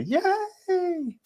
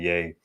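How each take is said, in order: First: "yay" stretched out way up high; high kiddie cheer. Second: Said in the usual way. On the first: Shown as a demonstration. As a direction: strain up high for a little kid's yay. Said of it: "My voice don't even go that high".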